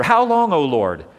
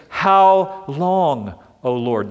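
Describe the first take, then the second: First: A desperate cry to heaven, louder than the first; sufferer's cry. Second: Psalmist's lament. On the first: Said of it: "That's the question of the sufferer". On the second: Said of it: "the psalmist asks this question". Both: Retold or imitated.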